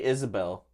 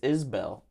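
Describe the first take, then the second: First: The name has three syllables, like Isabel. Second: The name has two syllables, like Is-bell. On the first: The speaker calls it wrong. "You say Isabel. That's not. That's like a girl's name" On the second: The speaker calls it right. "No, it's Isbell"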